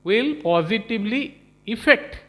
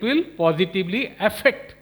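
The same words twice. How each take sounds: First: Affect said as "ih-FEKT"; "affect" starting on a short i sound; suggested wording. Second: Affect said as "a-FEKT"; "affect" starting on the vowel of cat; quoted wording. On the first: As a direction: say "affect" with an opening "ih", like effect. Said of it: "you should have been saying". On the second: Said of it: "what you said". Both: Shown as a demonstration.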